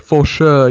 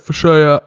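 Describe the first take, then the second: First: The word endings are fully pronounced. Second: The word endings are cut off. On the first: The speaker calls it wrong. "you don't say the full word" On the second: The speaker calls it right. "you gotta like cut off the words"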